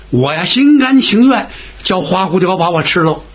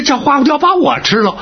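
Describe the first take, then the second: First: Measured, acted resolve, near usual pitch; willing acceptance. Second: High, rising echo of an outrageous plan; incredulous objection. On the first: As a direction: accept the plan with settled willingness. Now agrees to be the bait. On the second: Acted. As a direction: repeat it in disbelief, pitched up. Balks at being the bait.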